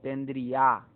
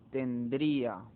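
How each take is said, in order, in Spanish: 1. La fuerza de voz cae en la 'a' final. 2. La fuerza de voz cae en la sílaba 'i'. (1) "no es tendría, no recae sobre la A la mayor fuerza de voz" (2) "sino sobre la"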